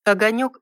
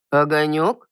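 First: Said in the usual way. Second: Rising, puzzled query; puzzled question. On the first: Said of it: "ровным голосом". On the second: A narrator's reading. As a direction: ask it baffled. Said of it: "с недоумением уточнил мужчина".

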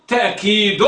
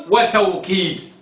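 First: تأكيد with a glottal catch, ta'-keed; with hamza. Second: وتوكيد said slowly with a w glide, wa-taw-keed; with waw. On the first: Teacher sets two variants side by side, hamza pronunciation. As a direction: stop briefly after ta in تأكيد. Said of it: "يعني بالهمز". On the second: Teacher sets two variants side by side, waw pronunciation. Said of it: "وبالواو". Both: Shown as a demonstration.

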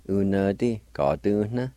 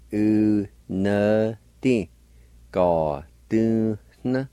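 First: Said in the usual way. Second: "u, na, di. Ga, du, na" slowly, syllables apart; syllable-by-syllable pronunciation. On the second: Shown as a demonstration. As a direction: draw out each syllable of "u, na, di. Ga, du, na". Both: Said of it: "And together".

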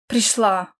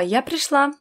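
First: Grumbled. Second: High-pitched announcement of arrival; loud declaration. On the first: Mother mocks daughter's arrival, grumbling. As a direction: throw the word back dismissively. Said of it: "буркнула Тия". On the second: Daughter tells quarrelling parents she is here, declaring. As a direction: announce yourself clearly over a quarrel. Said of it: "громко заявила". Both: A narrator's reading.

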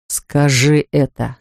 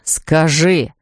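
First: Slow, low, seething demand; angry insistence. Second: Low, clipped repeated order; low angry insistence. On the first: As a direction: drag out each word in anger. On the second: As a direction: repeat it, darker and harder. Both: Acted. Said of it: "твердил он багровея".

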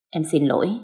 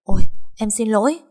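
First: Understated, contrite sorry; mildly remorseful wife, subdued after the first alarm; guilty apology. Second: Startled, louder and higher apology; flustered wife waking with a start; panicked apology. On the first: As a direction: apologise gently, feeling at fault. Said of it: "Thục thấy mình có lỗi quá". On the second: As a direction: blurt out sorry in alarm. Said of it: "Thục hoảng hốt". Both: A narrator's reading.

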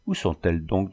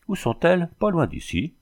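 First: Said in the usual way. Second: "Où sont-elles?" jumps much higher with a rising tune; teasing echo, high rising "sont-elles"; mocking echo. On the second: A narrator's reading. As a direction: toss the question back, pitched way up. Bandit mockingly echoes the question.

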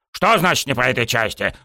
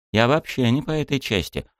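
First: Higher-pitched outraged echo; indignant cry. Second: Said in the usual way. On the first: A narrator's reading. Coach rejected by student, indignant cry. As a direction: throw the phrase back, mildly indignant. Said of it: "возмущённо завопил он".

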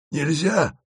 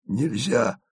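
First: Higher, smiling sympathetic refusal; sympathetic smile. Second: Softer sighing refusal; sighed. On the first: Asen repeats the refusal, smiling sympathetically. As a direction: say it with a kind smile. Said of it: "повторил Асен и сочувственно улыбнулся". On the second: Asen refuses the detour with a sigh. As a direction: sigh it out resignedly. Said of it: "вздохнул Асен". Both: A narrator's reading.

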